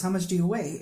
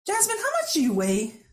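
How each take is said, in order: First: Said in the usual way. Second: Dad's blunt question, pitched much higher; imitating dad asking. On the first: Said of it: "he just said a few words". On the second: Dad asks daughter her weight, higher imitating voice. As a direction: mimic the father's probing ask, pitched up. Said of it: "and he says to me".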